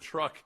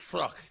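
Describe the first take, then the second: First: The word is pronounced in the standard way. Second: The word is pronounced with a speech impediment. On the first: "the word truck" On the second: "which sounded like truck"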